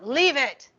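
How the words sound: It is said in a harsh, intimidating tone. Stop that or there will be trouble. The speaker calls it wrong. "in an intimidating tone of voice, such as leave it or leave it, like that"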